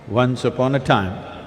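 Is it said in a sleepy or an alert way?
sleepy. It is said in a sleepy, bedtime way.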